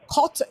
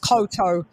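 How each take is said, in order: First: The middle syllable is said fast. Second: The middle syllable is said slowly. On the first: It is spelled with two Ts. "two T's. You pronounce it the syllable fast" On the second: It would be spelled with one T. "be one T if it was"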